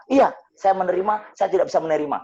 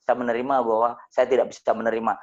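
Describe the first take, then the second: First: Higher, louder echo in the widow's voice; widow repeating. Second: Said in the usual way. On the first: Retold or imitated. Widow echoing the speaker's prayer, higher and louder. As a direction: repeat it back as the upset widow. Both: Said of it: "Saya mengikuti dia dulu".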